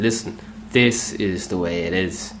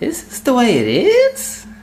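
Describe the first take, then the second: First: It sounds confident, with a lower voice. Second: It sounds insecure, like a high question.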